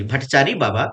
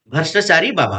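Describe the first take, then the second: First: भट्टाचारी said carefully with the double ट, no र; corrected name. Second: Says भ्रष्टाचारी, the word for corrupt, instead of the name भट्टाचारी; slip of the tongue. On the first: Teacher corrects himself to the right name भट्टाचारी in a plain voice. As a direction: fix the name after saying sorry, calmly. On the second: Teacher's slip, naming the village Baba भ्रष्टाचारी by mistake, then catching it. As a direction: let the name slip out as भ्रष्टाचारी, a little louder. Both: Real, not acted. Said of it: "भट्टाचारी, sorry".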